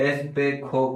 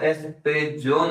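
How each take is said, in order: First: The middle consonant is a throaty 'kh' sound. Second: The middle consonant is an English 'j' sound. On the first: The speaker calls it right. "जय को स्पेनिश में ख प्रोनाउंस करते हैं" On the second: The speaker calls it wrong. "नहीं पढ़कर"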